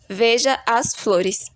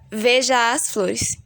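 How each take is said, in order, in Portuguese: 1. As vogais de 'veja' e 'as' são sílabas separadas. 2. As vogais de 'veja' e 'as' se fundem em uma só sílaba. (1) "Na primeira demonstração, temos uma separação gramatical, uma separação normal" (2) "Na segunda demonstração, temos uma separação com sílabas poéticas"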